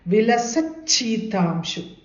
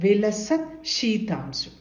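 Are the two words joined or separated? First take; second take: joined; separated. First: The two words are joined with a sound change. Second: The two words are said separately without merging. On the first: This is the form used when reciting. "We have to recite it as" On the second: This is the form used to split the words apart. "But when you are splitting it"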